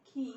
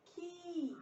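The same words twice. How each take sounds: First: खी with a brief i; short i vowel. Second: खी higher, with a long held ee; long i vowel. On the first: Teacher drilling the kh series, short vowel in खी. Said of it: "छोटी ई की मात्रा". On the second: Teacher drilling the kh series, long vowel in खी. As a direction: stretch the ee in खी. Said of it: "बड़ी की मात्रा लगेगी". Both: Shown as a demonstration.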